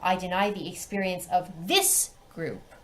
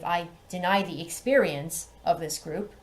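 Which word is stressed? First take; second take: this; deny. First: The stress falls on the word this. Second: The stress falls on the word deny. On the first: Only this particular group's experience is protected. The speaker calls it right. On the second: The act of denying experience is the issue. The speaker calls it wrong.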